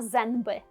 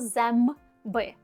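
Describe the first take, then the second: First: The nasal before b sounds like n. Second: The nasal before b sounds like m. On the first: The speaker calls it wrong. "Ми не кажемо «зенби»" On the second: The speaker calls it right. "ми кажемо «земби»"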